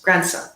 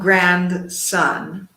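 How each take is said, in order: First: Grand and son are joined into one word. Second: Grand and son are said as two separate words. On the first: The speaker calls it right. "it's connected" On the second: The speaker calls it wrong. "it's not grandson, like grand palace"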